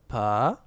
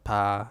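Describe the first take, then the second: First: The pitch rises upward. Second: The pitch stays level and low. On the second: "down like um flat"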